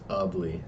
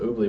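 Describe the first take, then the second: First: The first vowel is 'uh', as in 'ugly'. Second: The first vowel is not an 'uh' sound. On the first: The speaker calls it right. "It's U H. Pronounced like ugly" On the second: The speaker calls it wrong. "It is Ubly"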